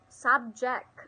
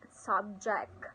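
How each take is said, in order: First: The stress is on the first syllable. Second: The stress is on the second syllable. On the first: It is used as a noun. "noun, first syllable" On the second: It is used as a verb. "verb, second syllable"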